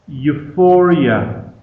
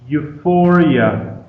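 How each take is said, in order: No difference in how they are said.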